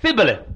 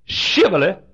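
First: Thibboleth with a lisped th for sh; mock southern mispronunciation; mispronounced Thibboleth. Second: Shibboleth with a clear sh at the start; Shibboleth said right. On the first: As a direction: say Thibboleth with a th instead of sh. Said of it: "They always said". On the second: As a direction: sound out Shibboleth with sh. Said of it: "They couldn't say". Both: Shown as a demonstration.

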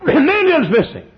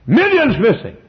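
First: Even higher and louder, with a laugh in it; heightened headline cry. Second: High, louder announcement of the headline; headline cry. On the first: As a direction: repeat it with escalating astonishment. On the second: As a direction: proclaim it like a newspaper banner. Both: Acted.

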